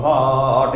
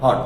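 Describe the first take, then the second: First: "হট" with the vowel stretched long; drawn out. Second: Said in the usual way. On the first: Shown as a demonstration. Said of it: "নাকি এইভাবে শুরু করে পড়ো". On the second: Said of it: "কেমন উচ্চারণ হয়?".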